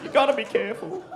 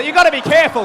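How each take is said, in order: First: Laughing repeat. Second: Loud warning. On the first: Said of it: "So you gotta be careful". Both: Shown as a demonstration.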